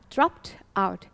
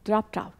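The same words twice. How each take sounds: First: It is said slowly and carefully. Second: It is said quickly with the sounds linked.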